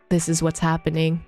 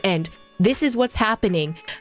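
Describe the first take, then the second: First: It is said flatly, like explaining plot. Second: It is said knowingly, with confident emotion.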